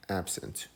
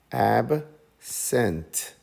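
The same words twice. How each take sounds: First: Said in the usual way. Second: Absent as AB, pause, SENT; slow, even beats in Absent with a gap; split into syllables. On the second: Shown as a demonstration. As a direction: break Absent into ab... sent, both full vowels. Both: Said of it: "So we say".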